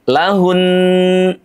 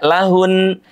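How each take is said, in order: First: The final nasal sound is held for two beats. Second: The final nasal sound is cut short. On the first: The speaker calls it right. "ditahan terlebih dahulu suara kita selama dua harokat" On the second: The speaker calls it wrong. "Tidak lahun"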